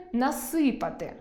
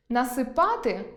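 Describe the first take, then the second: First: Насипати with stress on the first syllable, нАсипати; насипати, perfective stress. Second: Насипати with stress on the final syllable, насипАти; насипати, imperfective stress. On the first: Teacher demonstrates perfective stress, нАсипати. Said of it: "доконаний вид". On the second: Teacher demonstrates imperfective stress, насипАти. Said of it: "недоконаний вид ... доконаний вид". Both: Shown as a demonstration.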